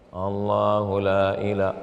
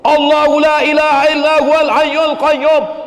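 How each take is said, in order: First: It is recited softly and slowly. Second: It is recited loudly and forcefully.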